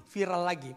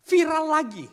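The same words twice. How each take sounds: First: Said in the usual way. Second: High, loud cry of viral lagi; exclaimed loud. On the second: Real, not acted. Preacher to congregation, loud high exclamation. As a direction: shout viral lagi out in disbelief.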